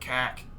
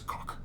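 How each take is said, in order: First: The word is said in a Midwestern accent. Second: The word is said in an imitated, funny accent. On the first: This is how the speakers themselves say it. "we're all like cack" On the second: Someone else said it. "the way he said like cock"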